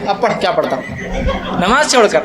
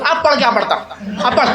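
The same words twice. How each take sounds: First: Laughing retelling. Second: Imitating an old man's agitated higher outburst; mock the old man's heated taunt at the imam; worked-up old man. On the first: Retold or imitated. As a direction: chuckle while repeating the old man's words. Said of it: "بولے". (ہنستے ہوئے دہرانا) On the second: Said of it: "ایک بوڑھا آدمی اتنا جوش میں آ گیا". (بوڑھے آدمی کا جوشیلا طنز، نقل میں)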